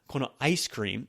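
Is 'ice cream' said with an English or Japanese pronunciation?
English. Ice cream is said with English pronunciation. The speaker calls it wrong. "It's not"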